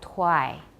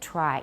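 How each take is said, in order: First: The R sounds like a W. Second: The R sounds like a regular R. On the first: The speaker calls it wrong. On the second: The speaker calls it right.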